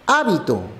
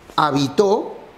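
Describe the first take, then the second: First: The stress is on the first syllable. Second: The stress is on the last syllable. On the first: It means a custom. "Hábito significa costumbre" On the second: It means someone lived somewhere. "Habitó, la acción de vivir"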